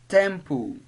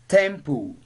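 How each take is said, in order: The two takes are said the same way.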